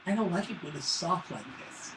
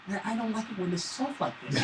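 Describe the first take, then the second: First: Put-on soft, whiny kid voice complaining about pizza; whiny little son. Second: Put-on quiet, mopey kid whine; whiny little son. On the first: Dad imitates his son whining about soft pizza, quiet and mopey. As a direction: mope it out like a sulky boy. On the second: Dad repeats his son's whiny complaint, softer and mopey. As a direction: drag the words like a sulky boy. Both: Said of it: "That's really how my son sounds".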